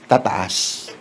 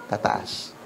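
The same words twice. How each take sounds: First: Said in the usual way. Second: Tataas breathed out in a whisper, no voice; whispered echo. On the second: Shown as a demonstration. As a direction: whisper the word Tataas to yourself. Preacher echoes key word. (pabulong na inulit ang Tataas)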